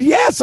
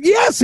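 First: Eager yes. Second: Even more eager yes. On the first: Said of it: "No, I said". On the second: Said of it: "I even". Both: Retold or imitated.

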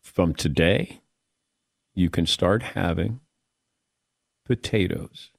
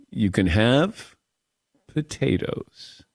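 First: Low, soft, drawn-out pronouncement; a hushed, weighty doctor's decree; solemn doctor verdict. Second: The doctor deflating the hype; deadpan letdown. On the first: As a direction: announce it like a grave ruling. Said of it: "He goes". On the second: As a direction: drop the punchline flat and heavy. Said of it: "a big buildup". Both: Retold or imitated.

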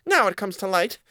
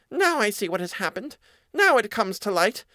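First: High mouse, a touch more measured; squeaky mouse realizing it, steadier. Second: High, dawning realization as a mouse; squeaky mouse putting it together. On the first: Mouse line redone. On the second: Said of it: "said the mouse". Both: A narrator's reading.

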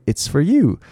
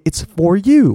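First: "It's for you" with "for" weakened to "fur"; light short "for", weight on "you"; reduced for. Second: "It's for you" with "for" full and stressed; high, emphatic full "for"; unreduced for. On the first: Teacher shows natural speech, weak "for". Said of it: "我会把它念". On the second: Teacher shows what not to say, stressed full "for". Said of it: "我不会把它念". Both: Shown as a demonstration.

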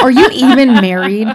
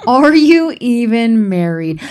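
First: Louder, laughing through the question; laughing punchline. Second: Slower, each word pressed, "married" leaned on; slow it down and drive it home; emphatic repeat. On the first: Host laughing as she challenges married listeners. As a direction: toss it out mid-laugh. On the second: Host repeating her challenge to married listeners, slow and emphatic. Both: Real, not acted.

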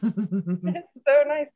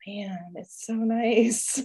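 First: Slow and drawn-out, savoring every word; lingering, dreamy relief; blissful sigh. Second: Slow, drawn-out and dreamy; slow, dreamy relief; blissful sigh. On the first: Repeats savoring weekend away. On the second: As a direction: melt into the relief of a quiet weekend. Savoring weekend away. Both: Retold or imitated.

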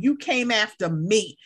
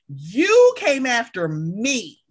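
First: Said in the usual way. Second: YOU drawn out, slow accusation; stress on YOU. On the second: Acted. Confronting the friend who hurt her, YOU stretched. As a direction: lean hard and long on "You".

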